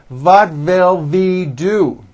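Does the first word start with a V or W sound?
V sound. The first word starts with a German-style V sound.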